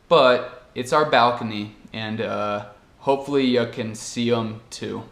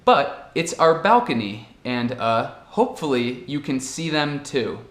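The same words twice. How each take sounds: First: The word 'them' is reduced to 'em'. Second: The word 'them' is said in full. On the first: "E a forma natural" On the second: "na forma certa, primeiro"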